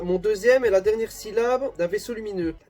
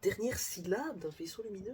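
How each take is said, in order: First: Loud, higher-pitched riddle reading; reading aloud. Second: Soft, high, incredulous question; baffled repeat. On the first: Reading the riddle card to viewers, loud read-aloud. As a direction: read the clue out with force. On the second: Puzzling over the riddle to himself, quietly baffled. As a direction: echo the clue under your breath, stumped. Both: Real, not acted.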